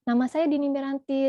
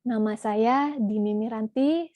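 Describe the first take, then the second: First: The words are spoken at a fast tempo. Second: The words are spoken at a calm, moderate tempo. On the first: The speaker calls it wrong. "Ini temponya cepat" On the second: The speaker calls it right. "tenang gitu ya, jangan terlalu cepat, jangan terlalu lambat"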